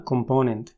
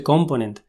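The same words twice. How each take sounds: First: "component" stressed on PO; pronunciación correcta. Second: "component" stressed on COM; pronunciación equivocada. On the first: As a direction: say "component" as com-PO-nent. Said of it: "más bien suena". ("component" con acento en "po") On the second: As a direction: say "component" with first-syllable stress. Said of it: "solemos pronunciar mal". ("component" con acento en "com") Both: Shown as a demonstration.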